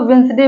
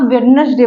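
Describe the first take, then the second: First: वेंसडे with no D after the first vowel; silent D. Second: वेडनेसडे with the D sounded; mispronunciation. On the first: Teacher corrects learners' Wednesday, वेंसडे with silent D. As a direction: drop the D in वेंसडे. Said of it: "silent है". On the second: Teacher shows learners the common mistake, वेडनेसडे with D sounded. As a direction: say वेडनेसडे with every written letter. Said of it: "लेकिन उसको वेंसडे बोलते हैं". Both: Shown as a demonstration.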